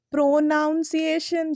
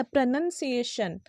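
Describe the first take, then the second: First: "प्रोनाउंसिएशन" as pro-NOUN-see-ay-shun, slow; wrong pronunciation. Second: "प्रोनाउंसिएशन" as pruh-nun-see-ay-shun; short "nun" in "प्रोनाउंसिएशन", no "noun"; correct pronunciation. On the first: Teacher shows her childhood mistake, "प्रोनाउंसिएशन" mispronounced pro-noun-see-ay-shun. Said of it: "ये बिल्कुल गलत है". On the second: Teacher models for pupils, "प्रोनाउंसिएशन" said pruh-nun-see-ay-shun. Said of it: "it's not". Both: Shown as a demonstration.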